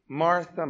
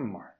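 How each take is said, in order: First: First gentle calling of the name; pitying call. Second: Much softer, fading second call; tender repeat. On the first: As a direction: say her name softly with pity. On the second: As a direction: let the name fall away gently with pity. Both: Retold or imitated. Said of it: "when he repeats her name twice, it's to show that pity".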